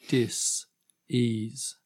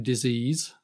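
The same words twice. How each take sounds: First: The word is said slowly, split in two. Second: The word is said at normal speed.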